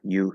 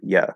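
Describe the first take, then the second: First: The vowel is a full, long oo sound. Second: The vowel is reduced to a short schwa. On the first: "the fully pronounced word you" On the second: "it can reduce to a schwa"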